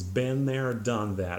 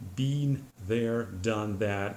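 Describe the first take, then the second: First: 'Been' has the usual American vowel. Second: 'Been' has a vowel Americans do not use. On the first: The speaker calls it right. "exactly this way" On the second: The speaker calls it wrong. "You will, I think, never hear an American say"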